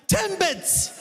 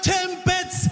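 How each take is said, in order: First: High, mock-exasperated "Timbits."; incredulous customer. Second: High, sing-song "Timbits."; insistent customer. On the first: Customer repeating "Timbits" to a clueless new cashier, high and exasperated. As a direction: say it like it's obvious, pitched way up. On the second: Retold or imitated. Customer singing "Timbits" at the clueless cashier, high and sing-song. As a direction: lilt it like a chant.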